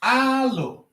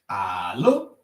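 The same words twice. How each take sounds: First: Alo said high, falling at the end. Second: Alo starts low, rising at the end. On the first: Teacher shows tone contrast, Alo held high. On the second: Teacher shows tone contrast, Alo said low. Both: Shown as a demonstration. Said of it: "look at their tone marks".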